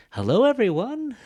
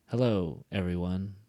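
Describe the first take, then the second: First: Very high, loud "Hello, everyone" with a huge swoop; exaggerated wrong intonation. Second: "Hello" then "everyone" in two parts, low and left open; unfinished level ending. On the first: Teacher shows learners what nobody does, exaggerated high intonation. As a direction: overblown singsong on "everyone", pitched way up. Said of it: "nobody does that. Don't do that". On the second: Teacher shows learners a thought unfinished, open level ending. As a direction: leave "everyone" hanging, not dropping, as if more will follow. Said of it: "it hasn't finished".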